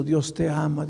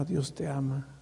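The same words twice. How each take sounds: First: Said in the usual way. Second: Dios te ama almost gone, much softer; fading to a hush. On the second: Shown as a demonstration. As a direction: breathe Dios te ama out as a fading echo in the ear. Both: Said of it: "Y aquí en mi oído".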